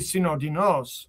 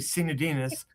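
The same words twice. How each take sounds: First: The name is pronounced in a Greek way. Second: The name is pronounced in an American English way. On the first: This is the original form in the home language. "but it would be Sinodinos, uh, you know, in the Greek" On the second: This is how the family says it in America. "the American way to, I mean, all my cousins say Sinodinos"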